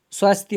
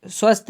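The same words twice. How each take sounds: First: स्वास्थ्य with long aa and final ya, swaasthya; correct form. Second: स्वस्थ with short a, swasth; wrong form. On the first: Teacher giving the correct word, स्वास्थ्य with long vowel. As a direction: lengthen the aa in स्वास्थ्य and sound the ya. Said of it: "स्वास्थ्य होता है". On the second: Teacher rejecting a spelling, स्वस्थ with short vowel. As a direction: say स्वस्थ short, without a final ya. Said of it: "स्वस्थ नहीं होता है". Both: Shown as a demonstration.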